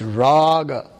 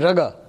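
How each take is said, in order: First: The first vowel is long. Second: The first vowel is short. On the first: The speaker calls it right. "it's raga. So the first A is long" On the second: The speaker calls it wrong. "if you do not put two A's, then you might say raga"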